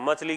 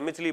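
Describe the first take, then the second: First: The first vowel is a short a sound. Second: The first vowel is a short i sound. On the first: The speaker calls it right. "मछली की जगह" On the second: The speaker calls it wrong. "मिछली बन गई"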